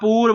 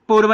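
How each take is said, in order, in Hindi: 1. 'u' स्वर बड़ा है। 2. 'u' स्वर छोटा है। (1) "पूर्व होता है, बड़ा ऊ लगता है" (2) "पूर्व नहीं होता"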